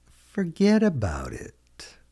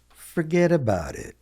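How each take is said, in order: First: "Forget about it" stretched out, high then falling; slow, higher-pitched "Forget about it"; slow model repeat. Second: "Forget about it" pitched up, then falling; casual model phrase. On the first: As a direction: draw out "Forget about it" slowly for learners. Teacher repeats phrase slowly for learners. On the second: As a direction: toss off "Forget about it" high, at natural pace. Teacher models phrase, then slower. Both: Shown as a demonstration.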